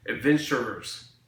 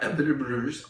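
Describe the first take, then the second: First: Adventurers said slowly and clearly, ad-VEN-chur-ers; careful adventurers. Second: Adventurers slurred to abinabruz; mispronounced adventurers. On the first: Fixing the word for viewers, adventurers said slowly and clearly. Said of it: "not adventures". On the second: Correcting a slip, Adventurers garbled to abinabruz. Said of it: "that's not right". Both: Shown as a demonstration.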